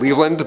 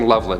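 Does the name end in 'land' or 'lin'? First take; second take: land; lin. First: The last syllable is said as 'land'. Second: The last syllable is said as 'lin'. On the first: The speaker calls it right. "It's probably like Leveland" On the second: The speaker calls it wrong. "I'm probably saying it wrong"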